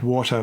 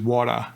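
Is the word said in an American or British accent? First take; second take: British; American. First: It is said in a British accent. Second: It is said in an American accent. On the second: "U S"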